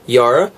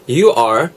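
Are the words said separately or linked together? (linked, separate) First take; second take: linked; separate. First: The two words run together into one syllable. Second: The two words are said separately and fully.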